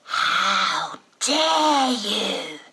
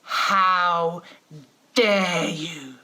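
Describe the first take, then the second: First: Very slow, loud, strained creature shriek; Gollum voice. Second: Louder, stern and drawn out; lowered authority voice. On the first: Six-year-old throwing mum's words back as a shrieking Gollum. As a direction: stretch it into a crying Gollum howl. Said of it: "out of his innocent little face comes Gollum". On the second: Mother lowering her voice to cow her defiant kids, stern and slow. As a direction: pull yourself up to full parental authority. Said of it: "I lower my voice to lift my sense of authority". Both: Retold or imitated.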